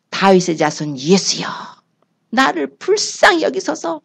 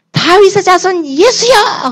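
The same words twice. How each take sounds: First: Pleading. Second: High, slow, loud call; a blind beggar shouting for Jesus, high and drawn out; crying out. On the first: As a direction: beg humbly, drawing each word out. Blind man begging for mercy. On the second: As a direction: cry out across the crowd to be heard. Blind man calling out to Jesus. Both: Acted.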